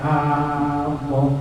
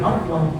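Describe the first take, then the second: First: The first vowel is drawn out long. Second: The first vowel is short, running into the l. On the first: It asks whether there is God. The speaker calls it wrong. "dipanjangkan bacanya" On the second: It simply names God. The speaker calls it right. "Beda dengan"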